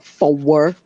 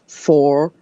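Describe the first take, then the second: First: It is drawn into two syllables, Maine style. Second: It is said as one plain syllable.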